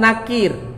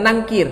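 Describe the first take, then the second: First: The name is said without an ng sound. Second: The name is said with an ng sound. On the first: The speaker calls it right. "namanya Munkar dan Nakir" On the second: The speaker calls it wrong. "bukan Nangkir"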